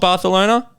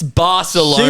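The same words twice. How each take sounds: First: The c is said as a lisped th sound. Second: The c is said as a plain s sound. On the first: This is how local people say it. The speaker calls it wrong. "the people from Spain call it" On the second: This is the ordinary English way. The speaker calls it right.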